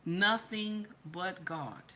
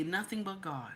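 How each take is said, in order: First: NOTHING BUT GOD drawn out at half speed; slow emphatic repeat. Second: Said in the usual way. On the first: Real, not acted.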